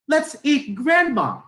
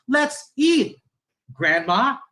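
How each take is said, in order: First: High, loud, joined phrase dropping on GRANDMA; Grandma as the food. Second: High "Let's eat", break, lifted GRANDMA; calling Grandma to eat. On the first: Teacher shows Grandma getting eaten, run-together falling tune. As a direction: run EAT straight into GRANDMA, no pause, falling. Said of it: "Yung pangalawa, sinasabi natin na kainin na natin si Grandma". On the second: Teacher voices calling Grandma to the table, separated phrasing. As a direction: pause before GRANDMA, which rises as an address. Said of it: "Yung unang intonation, tinatawag natin si Grandma".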